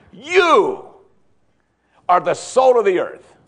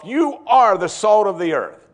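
First: High, loud, thrilled YOU then the rest; rising preacher's excitement on You; excited proclamation. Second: Slow, loud, weighty declaration; solemn slowed announcement; slow proclamation. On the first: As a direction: announce it like wonderful news. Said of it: "he wants them to get all excited about this". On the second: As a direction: lay each word down deliberately. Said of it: "Believers are called by the Lord himself". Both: Shown as a demonstration.

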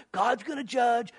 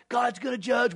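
First: Drawn-out taunt of God's gonna judge; slowly mock the preacher's warning; slow mocking jeer. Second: God's gonna judge yelled in mockery; mock shouted jeer. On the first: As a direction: scoffer mocking Noah, slow and sneering. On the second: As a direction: shout it back in ridicule. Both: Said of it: "all you talk about is".

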